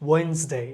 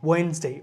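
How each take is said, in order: No difference in how they are said.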